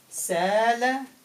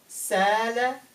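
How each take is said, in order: No difference in how they are said.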